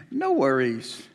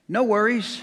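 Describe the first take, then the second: First: "No worries" said slow and longing; dreamy wish. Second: Australian "No worries", pitched up high; mock Aussie "No worries", drawn out and bright; Australian accent. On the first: Acted. Preacher wishing for a worry-free life, dreamy and slow. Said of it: "And I thought to myself". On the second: Preacher imitating Australians he met, Australian accent. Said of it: "they talk funny in Australia".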